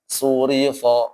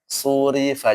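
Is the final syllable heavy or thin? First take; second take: heavy; thin. First: The final syllable is heavy and rounded. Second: The final syllable is light and thin. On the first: The speaker calls it wrong. "jangan surifo misalkan. Ini yang salah ya" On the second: The speaker calls it right. "Dibaca tipis saja"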